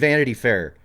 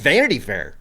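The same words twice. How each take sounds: First: The stress falls on the usual syllables. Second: The stress falls on an unusual syllable.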